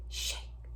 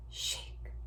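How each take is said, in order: Both takes have the same delivery.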